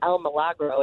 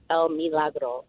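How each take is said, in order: First: The i after M is not an ee sound. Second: The i after M is an ee sound. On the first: The speaker calls it wrong. "so it's not El Milagro" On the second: The speaker calls it right. "the I is pronounced like a double E"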